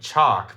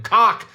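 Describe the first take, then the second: First: The word is said with the normal 'ch' sound. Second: The word is said with a 'k' sound instead. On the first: The speaker calls it right. "he knows chalk, and so he keeps calling it chalk" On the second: The speaker calls it wrong. "he doesn't say it right"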